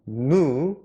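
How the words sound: It is said with an American pronunciation. "이것은 미국식 발음이고요"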